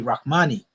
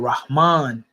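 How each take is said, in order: First: The word ends with an extra vowel after n. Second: The word ends on the n with no vowel. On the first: This is the modern standard Arabic usage. "you might see Rahmani being used in standard Arabic" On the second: This is the proper Quranic Arabic usage. "Rahman would be the proper way of saying it in the Quranic Arabic realm"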